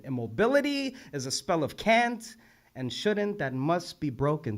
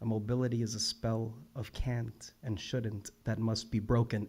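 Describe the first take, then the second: First: "Immobility" and "can't" lifted high; reciting with "Immobility" and "can't" pitched up for emphasis; emphatic reread. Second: Said in the usual way. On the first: Real, not acted. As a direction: lift "Immobility" and "can't" sharply, then settle on "broken".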